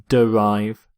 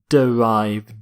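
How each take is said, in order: First: The first vowel is pronounced, giving two syllables. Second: The same.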